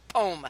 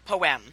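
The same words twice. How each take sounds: First: The word is said as one syllable. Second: The word is said as two syllables. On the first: "To me, poem is one word. It's called poem" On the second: "not poem"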